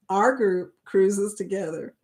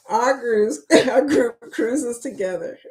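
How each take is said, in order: First: Said in the usual way. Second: Stumble, restart and let a giggle escape; suppressed laughter round the words; failing straight face. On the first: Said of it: "say it with a straight face". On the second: Real, not acted. Host retrying the group cruise intro for viewers, barely holding back laughter. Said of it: "I can't even say it with a straight face".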